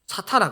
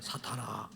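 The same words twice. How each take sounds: First: It is said forcefully and sternly. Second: It is said calmly and mildly.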